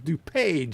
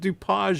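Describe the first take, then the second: First: The last syllable sounds like the word 'page'. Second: The last syllable does not sound like 'page'. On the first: The speaker calls it right. "like in a book" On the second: The speaker calls it wrong. "it's not DuPage"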